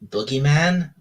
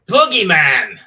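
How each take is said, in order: First: It is said hesitantly, like a question. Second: It is said forcefully, with authority.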